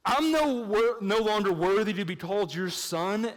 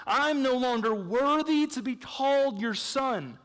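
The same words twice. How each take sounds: First: A hint of the son's plea; requoting the son. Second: Higher, slow, pleading son's confession; a touch of the humbled son; quoting the prodigal son. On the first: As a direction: echo the son's words to question them. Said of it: "actually doesn't make any sense". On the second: Retold or imitated. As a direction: read it out like the son begging. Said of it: "he's saying twice in this passage".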